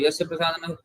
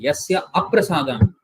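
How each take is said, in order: First: The second word is heard as prasadan. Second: The second word is heard as aprasadan. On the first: By his mercy I will be lost. The speaker calls it wrong. "By his mercy, I will be a lost soul. I'm insulting my guru there" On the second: Without his mercy I will be lost. The speaker calls it right. "When he is not satisfied, when I don't have his mercy"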